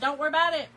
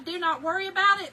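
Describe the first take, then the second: First: Do not is contracted into one word. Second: Do not is said as two full words. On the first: The speaker is relaxed and casual. "instead of don't worry about it" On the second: The speaker is serious and getting annoyed. "I went to the do not worry about it"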